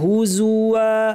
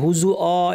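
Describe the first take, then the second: First: The word ends with a clear 'wa' sound. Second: The word ends in a plain vowel without 'w'. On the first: The speaker calls it right. "ওয়া বলতে হবে" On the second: The speaker calls it wrong. "অনেকে হুজু অ এরকম বলেন, এটা ঠিক না"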